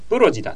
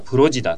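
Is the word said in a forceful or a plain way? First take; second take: forceful; plain. First: The word starts with a forceful, emphatic sound. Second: The word starts with a plain, unforced sound. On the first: It is a casual, colloquial way of saying it. The speaker calls it wrong. "勢いつけて言ったりするときは、プロジだというふうに発音されることが多い" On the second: It is the standard, formal way of saying it. The speaker calls it right. "プロジだと覚えるのが正しいです"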